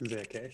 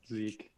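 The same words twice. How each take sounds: First: "Zeke" in two syllables, zeh-keh; "Zeke" with short e and a voiced final e; mispronunciation of Zeke. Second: Zeke as one syllable with a long ee; "Zeke" rhyming with seek; correct pronunciation of Zeke. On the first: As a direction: say "Zeke" as a non-American reads it, sounding both e's. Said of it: "everyone who's not from the United States reads it". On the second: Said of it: "my name is pronounced like this". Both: Shown as a demonstration.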